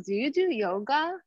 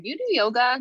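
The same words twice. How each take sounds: First: Higher, sudden quizzing question; lightly mimicked odd woman's question; blunt stranger. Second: Blunt stranger. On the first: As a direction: fire it at her like a stranger with no hello. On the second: Retold or imitated. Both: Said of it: "Like that".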